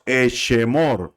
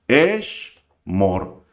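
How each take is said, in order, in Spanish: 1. Se oye una vocal extra entre 'sh' y 'm'. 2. No se oye ninguna vocal entre 'sh' y 'm'.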